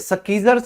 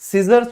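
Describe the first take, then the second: First: The word starts with an sk sound. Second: The word starts with a plain s sound. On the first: The speaker calls it wrong. "इसीलिए स्कीजर्स नहीं होता है" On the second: The speaker calls it right. "इसे सीजर्स बोला जाता है"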